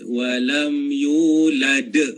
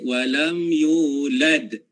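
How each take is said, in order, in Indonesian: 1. Ada vokal tambahan setelah d terakhir. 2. D terakhir hanya memantul, tidak ada vokal yang ditambahkan. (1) "De belakang tu" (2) "dia pantulan huruf dal tu, bukan tambah hamzah"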